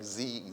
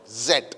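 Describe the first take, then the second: First: The letter name is said the American way. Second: The letter name is said the British way. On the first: "Americans they tell Z, like Z" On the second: "in England or other part of the Britain like Scotland, Ireland, they used to pronounce like Z"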